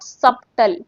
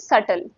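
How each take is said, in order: First: A b sound is heard in the middle. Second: No b sound is heard in the middle. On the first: The speaker calls it wrong. "This is not सबटल" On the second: The speaker calls it right. "इसमें बी silent है"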